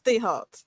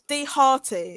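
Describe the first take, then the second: First: The name ends cleanly on a 't' sound. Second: The name ends with an extra 'ee' sound. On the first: The speaker calls it right. "but it's D it's it's D Heart" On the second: The speaker calls it wrong. "D Hearty is normally what people say"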